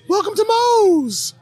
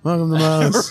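First: It is shouted with loud enthusiasm. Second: It is said flatly without enthusiasm.

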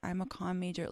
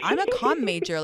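First: The voice sounds embarrassed and apologetic. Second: The voice sounds proud and confident. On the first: The speaker is ashamed of the major. The speaker calls it wrong. "if you're like, I'm embarrassed, like" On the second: The speaker is proud of the major. The speaker calls it right. "Be like, I'm a comm major. Like, it's fucking awesome"

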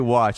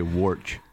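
First: The word has no r sound. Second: The word has an r sound before ch. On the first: "They don't say watch" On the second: "They say warch"

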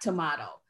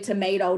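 First: It is said the way the North would say it. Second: It is said in the speaker's own usual way.

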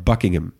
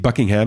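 First: The ending is a reduced 'hm'. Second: The ending is a full 'ham'. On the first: The speaker calls it right. "maar Buckingham" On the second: The speaker calls it wrong. "En Buckingham is niet Buckingham"

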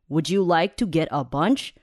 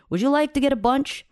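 First: It is spoken in a stiff, textbook-like way. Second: It is spoken in a relaxed, natural way. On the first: The speaker calls it wrong. "你说现实生活中有人会这样讲话吗？" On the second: The speaker calls it right. "通常这样才是正常的说话方式。"

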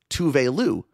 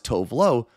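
First: Two words, the second ending in an 'oo' sound. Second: Two words, the second ending in an 'oh' sound.

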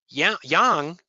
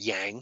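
First: The word is said in a non-American pronunciation. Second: The word is said in an American pronunciation.

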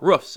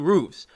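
First: The word has a Chicago-style vowel pronunciation. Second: The word has the speaker's usual pronunciation.

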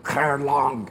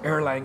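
First: The name has a Germanic, Danish-style pronunciation. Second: The name has a plain English pronunciation. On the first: The speaker calls it right. "you pronounce it Erlang. ... more the Germanic style" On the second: The speaker calls it wrong. "you don't pronounce it Erlang"

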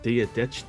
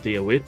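First: The second word sounds like 'ditch'. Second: The second word does not sound like 'ditch'. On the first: This is how the speaker says it. "So imagine like the word ditch" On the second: This is how some other people say it. "people, like, there's people, ... they said Dia Wit"

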